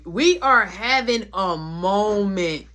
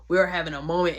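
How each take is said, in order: First: Slow, loud stretch on "moment"; "we are having a moment" word by word, "moment" stretched out; drawn-out emphasis. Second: Said in the usual way. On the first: Retold or imitated. Emphatic take, then repeated in usual way.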